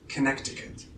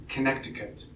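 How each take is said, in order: Both takes have the same delivery.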